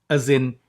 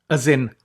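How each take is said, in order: The two takes are said the same way.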